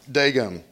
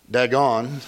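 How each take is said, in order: First: Dagon with a long A, DAY-gon; correct pronunciation of Dagon. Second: Dagon with a short, flat A as in "dad"; wrong pronunciation of Dagon. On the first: Answering someone who asked last week, Dagon as DAY-gon. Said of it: "How do you say Dagon". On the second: Showing someone who asked how not to say it, Dagon as DAG-on. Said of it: "It's not". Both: Shown as a demonstration.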